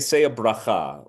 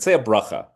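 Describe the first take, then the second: First: Bracha is said with a non-Ashkenazi pronunciation. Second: Bracha is said with an Ashkenazi pronunciation.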